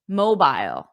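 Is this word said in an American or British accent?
British. It is said in a British accent. "But in British English, mobile"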